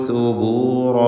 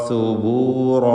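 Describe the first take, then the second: Both takes have the same delivery.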